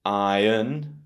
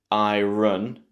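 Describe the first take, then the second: First: "iron" as EYE-un, no r; British "iron" with silent r. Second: "iron" as eye-RUN; wrong iron. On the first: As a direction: stress eye, weak un in "iron". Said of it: "in British English". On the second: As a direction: put the r at the start of "iron"'s second syllable. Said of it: "We don't say". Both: Shown as a demonstration.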